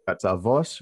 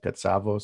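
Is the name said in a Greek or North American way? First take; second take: Greek; North American. First: The name is said with a Greek pronunciation. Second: The name is said with a North American pronunciation. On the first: This is the family's original pronunciation. "How do you say it? Katsavos" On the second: This is how people locally pronounce it. "everybody here in Canada and North America pronounce it Katsavos"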